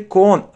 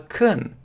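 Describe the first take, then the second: First: The syllable has a full, clear o vowel. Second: The syllable has a weak, reduced vowel. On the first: The speaker calls it wrong. "не читается не con" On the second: The speaker calls it right. "а can, как E, слабое E"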